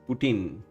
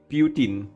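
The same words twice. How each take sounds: First: The name is said in an American accent. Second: The name is said in a British accent. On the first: "American says" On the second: "Brits pronounce it"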